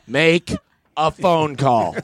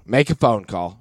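First: "Make", pause, then "a phone call", higher; insistent repeat. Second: Said in the usual way. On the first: Retold or imitated. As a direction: repeat it firmly, breaking after "Make". Repeats order after her "What?.

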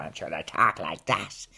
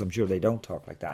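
First: Mock Dublin accent, a little lower. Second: Said in the usual way. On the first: Shown as a demonstration. Comedian showing how the officials talk, Dublin accent. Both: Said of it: "talk in Dublin accents".

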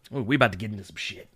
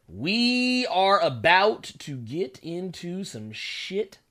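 First: Quick low mutter; fast mumble. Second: Stretched slow and deliberate; slow drawn-out. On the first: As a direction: rush it out under breath. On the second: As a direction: drag every word out. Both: Shown as a demonstration. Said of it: "repeats line slowly".

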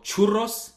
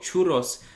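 First: Churros with a rolled Spanish R. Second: Said in the usual way. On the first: Shown as a demonstration. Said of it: "I emphasize churros because I'm used to it". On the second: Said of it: "it's actually only two R's".

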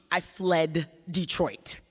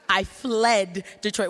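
First: Said in the usual way. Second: Louder "I fled Detroit" with "fled" stressed; a loud, slow repeat pressing on "fled"; emphatic. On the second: Shown as a demonstration. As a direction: hit "fled" hard and slow. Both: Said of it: "repeated for emphasis".

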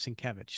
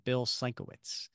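First: Sienkiewicz said the corrected way; corrected pronunciation. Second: Put-on Sienkiewicz said the old mistaken way; mistaken pronunciation. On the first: Host quotes someone correcting him, Sienkiewicz pronounced as corrected. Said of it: "Then somebody said". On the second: Host confesses how he used to say it, mispronouncing Sienkiewicz. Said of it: "No, no, it's Sienkiewicz". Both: Shown as a demonstration.

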